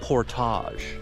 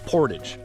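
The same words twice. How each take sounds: First: The word is pronounced the French way. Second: The word is pronounced the American way. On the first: The speaker calls it wrong. "as the French say" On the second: The speaker calls it right. "we Americans call that a portage"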